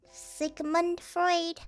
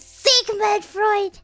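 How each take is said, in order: First: Said in the usual way. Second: "Sigmund Freud" with an A replacing the U, like "Sigma"; altered pronunciation. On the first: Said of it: "if you change the U". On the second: Shown as a demonstration. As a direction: punch out "Sigmund Freud" as "Sigmand", high, loud and slow. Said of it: "change the U to an A".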